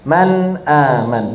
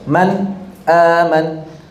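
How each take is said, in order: First: The two words run together without a stop. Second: A brief stop separates the two words. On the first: This follows the reading tradition that reads it without stopping. "mengalir, mengalir" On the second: This follows the reading tradition that stops before a glottal stop. "dia di saktah, dia di jeda"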